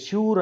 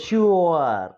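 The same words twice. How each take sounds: First: Said in the usual way. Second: "ష్యూర్" as a long shu-ar, gliding down; correct pronunciation. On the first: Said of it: "దీన్ని ష్యూర్ అనకూడదు". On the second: Shown as a demonstration. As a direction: stretch "ష్యూర్" into two sounds, shu-ar. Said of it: "కానీ దాన్ని ఏమనాలంటే".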